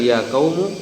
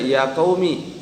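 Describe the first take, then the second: First: The word ends with an 'u' vowel. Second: The word ends with an 'i' vowel. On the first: It is the basic form with nothing dropped. "Bisa bilang ya kaumu, hadza al aslu" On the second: The final vowel marks a dropped possessive 'my'. "Bisa juga katanya dibaca ya kaumi"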